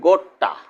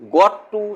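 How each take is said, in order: First: The words blend into one short reduced word. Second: Both words are said fully and separately. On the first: "assimilation" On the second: "পূর্ণরূপ"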